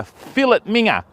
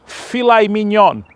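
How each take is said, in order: First: "fillet minger" as FILL-it MING-uh, broad Aussie. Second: "filet mignon" slowly as fi-LAY min-YON; French filet mignon. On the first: Mock dictionary for Europeans, Aussie "fillet minger". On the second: Mock dictionary for Europeans, French "filet mignon". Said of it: "So France". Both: Shown as a demonstration.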